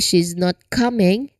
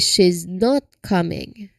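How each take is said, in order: First: The word not is not stressed. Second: The word not is stressed. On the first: The speaker calls it wrong. "we don't say she's not coming" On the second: The speaker calls it right. "Focus or emphasis on the word not"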